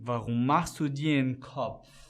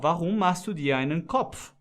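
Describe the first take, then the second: First: 'Einen' shrinks to a quick 'en' linked to 'dir'. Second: 'Einen' is said in full, slowly and carefully. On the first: This is how Germans really speak on the street. "você vai falar assim" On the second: This is slow, careful, textbook German. "se você for falar pausado em alemão"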